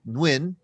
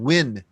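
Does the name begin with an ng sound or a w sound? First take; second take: ng sound; w sound. First: The name begins with an ng sound. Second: The name begins with a w sound. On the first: The speaker calls it wrong. "I always say Nguyen" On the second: The speaker calls it right. "without the N"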